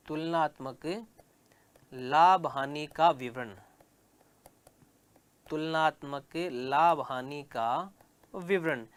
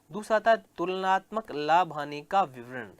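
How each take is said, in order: First: Slow, spaced dictation pace; dictating word by word to the class. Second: Said in the usual way. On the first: Shown as a demonstration. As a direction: say it slowly so students can write it down. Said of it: "teacher dictates heading for notes". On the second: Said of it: "teacher repeats heading for notes".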